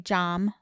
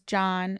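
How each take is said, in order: First: The name ends with an M sound. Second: The name ends with an N sound. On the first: "I would say Jom" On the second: "my brother's name is John"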